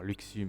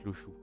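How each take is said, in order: First: The middle consonant is not a sh sound. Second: The middle consonant is a sh sound. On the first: The speaker calls it wrong. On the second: The speaker calls it right.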